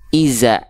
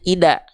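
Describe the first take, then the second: First: The middle consonant is a 'z' sound. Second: The middle consonant is a 'd' sound. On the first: "banyak orang melafalkan jadi zai, Salah" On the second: "banyak orang melafalkannya ida. Nah, jangan jadi huruf dal"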